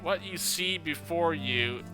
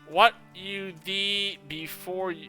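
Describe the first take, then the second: First: See starts with a plain s sound. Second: See starts with a th sound, like a lisp. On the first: The speaker calls it right. "I'm gonna read it how it's supposed to be read" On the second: The speaker calls it wrong. "the T H is supposed to be an S"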